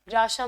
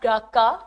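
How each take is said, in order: First: The second consonant is an 'sh' sound. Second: The second consonant is a 'k' sound. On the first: The speaker calls it right. "this is how they pronounce it" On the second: The speaker calls it wrong. "it's not ग्राका"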